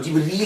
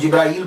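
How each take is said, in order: First: The middle is said with a long 'ee' sound. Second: The middle is said with an 'ai' sound. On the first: This is the original Arabic form. "वो जिब्रील है" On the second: This is the form local Urdu speakers adopted. "जैसे हम जिब्राइल बोलते हैं"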